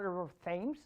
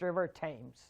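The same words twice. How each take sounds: First: Thames begins with a soft th sound. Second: Thames begins with a plain t sound. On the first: The speaker calls it wrong. "It's not river Thames" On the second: The speaker calls it right. "it's river Thames"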